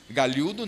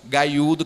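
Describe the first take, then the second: First: The middle consonant is a palatal 'lh' sound. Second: The middle consonant is a 'y' glide. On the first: The speaker calls it wrong. "Galhudo não" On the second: The speaker calls it right. "que é para ficar uma pronúncia bem interiorana"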